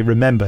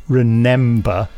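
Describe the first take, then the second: First: "remember" said normally; "remember" with the usual sound; correct spelling. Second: "remember" read slowly as the typo; "remember" slowly, as misspelt; typo pronounced. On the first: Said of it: "Daniel doesn't say". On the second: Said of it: "he says". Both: Shown as a demonstration.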